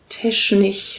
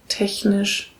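First: The sound before the n is like sh. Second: The sound before the n is a soft ch. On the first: The speaker calls it wrong. "Die sagen dann so Sachen wie technisch" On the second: The speaker calls it right. "statt technisch"

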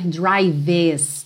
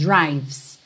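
First: An extra vowel is sounded between v and s. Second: The v goes straight into the s. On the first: The speaker calls it wrong. "Você não vai passar pelo E no som. Você não vai dizer drives" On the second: The speaker calls it right. "É como se você fosse mesmo do V direto pro S"

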